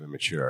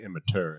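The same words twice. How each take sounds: First: The T is softened toward a ch sound. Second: The T is pronounced as a hard T.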